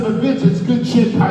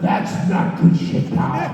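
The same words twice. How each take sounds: First: High, loud enthusiastic sell of the idea; eager pitch. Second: Slow, rough, airy flat rejection of "good shit"; gruff Vince retort. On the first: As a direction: push the idea eagerly on the boss. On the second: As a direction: throw the words back grumpily and slowly. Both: Retold or imitated. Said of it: "So there was my argument".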